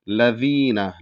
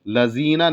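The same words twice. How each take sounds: First: The 'dh' sound is light, tongue against upper teeth. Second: The 'dh' sound is heavy and emphatic, like 'za'. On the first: The speaker calls it right. "ज़ाल बारीक अदा हो जाएगा" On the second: The speaker calls it wrong. "लज़ीना नहीं कहना है, ... जो कि ज़ा का मखरज है जो गलत है"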